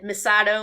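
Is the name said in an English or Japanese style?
English. The name is said with English-style pronunciation. The speaker calls it wrong. "Misato instead of"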